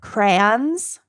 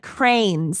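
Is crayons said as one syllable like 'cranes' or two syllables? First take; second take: two syllables; one syllable. First: Crayons is said with two syllables. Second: Crayons sounds like one syllable, 'cranes'. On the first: This is the usual pronunciation. "instead of crayons" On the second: This is a relative's regional pronunciation. "he also said cranes instead of crayons"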